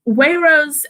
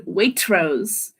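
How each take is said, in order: First: The middle T sound is left out entirely. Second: A faint T is held before the R. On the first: The speaker calls it wrong. "otherwise it would be Wayrose" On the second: The speaker calls it right. "the middle one is obviously the correct way to say it"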